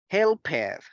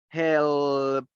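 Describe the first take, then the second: First: The ending is not a plain T sound. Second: The ending is a plain T sound. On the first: The speaker calls it wrong. "we don't say helped" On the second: The speaker calls it right. "esta ed se va a pronunciar como una T"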